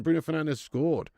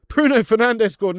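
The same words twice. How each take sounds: First: Said in the usual way. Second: High, loud burst of delight; thrilled to hear who scored; excited announcement. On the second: Real, not acted. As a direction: shout the scorer's name. Excited news of a goal.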